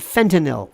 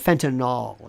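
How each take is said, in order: First: The word is said in its standard pronunciation. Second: The word is said in a variant pronunciation. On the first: The speaker calls it right. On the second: The speaker calls it wrong.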